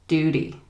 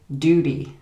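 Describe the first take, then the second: First: The middle consonant is a soft D-like sound. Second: The same.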